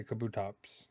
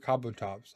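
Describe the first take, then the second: First: Kabutops as "kuh-BOO-tops"; preferred pronunciation. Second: Kabutops as "KAH-boo-tops"; heard pronunciation. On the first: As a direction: reduce the first vowel of Kabutops to "kuh". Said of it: "I say Kabutops". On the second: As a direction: give Kabutops a full "ah" in its first syllable. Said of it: "I've heard Kabutops". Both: Shown as a demonstration.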